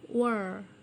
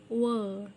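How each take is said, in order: First: It is said in an American accent. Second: It is said in a British accent.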